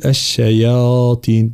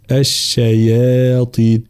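First: الشياطين with the ي made heavy by the ط, the wrong way. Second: الشياطين with the ي kept thin before the heavy ط; the right way: الشياطين with a light ي, slowly; correct thin ya. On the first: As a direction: demo the error: الشياطين with a thickened ي. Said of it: "فلا نقول الشياطين". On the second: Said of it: "لا، الشياطين". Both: Shown as a demonstration.

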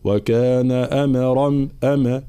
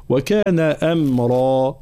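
First: Bounced m with an extra vowel in "أمرا"; wrong qalqala. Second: Slow chanted "أمرا" with a still, closed m; no qalqala. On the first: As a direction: release the m of "أمرا" into a little "ama". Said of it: "لا أقول". (قلقلة الميم خطأً في "أمرا") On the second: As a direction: hold the m in "أمرا" without any bounce. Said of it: "الميم طبعًا ليست من حروف القلقلة". (ميم ساكنة بلا قلقلة في "أمرا") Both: Shown as a demonstration.

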